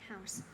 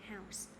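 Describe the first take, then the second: No difference in how they are said.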